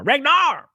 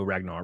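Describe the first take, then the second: First: High, loud drawn-out call; sudden high-pitched yell. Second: Said in the usual way. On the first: Real, not acted. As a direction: holler the name across the room. Calls a chatter's name twice.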